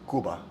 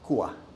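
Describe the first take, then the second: First: The B sound is clearly pronounced. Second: The B is nearly dropped, Cuban style.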